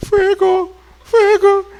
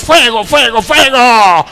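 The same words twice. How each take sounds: First: Higher, weak and deflated; the fire won't come out, squeak it; a half-hearted, higher fuego with no force; feeble mock fire cry. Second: Loud fiery preacher cry; louder hammed-up fire and brimstone; mock preacher shouting. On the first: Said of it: "Ni el fuego le sale". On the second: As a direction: shout it like a pastor whipping up the church. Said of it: "le está hablando acá".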